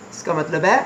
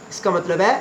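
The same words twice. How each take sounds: The two takes are said the same way.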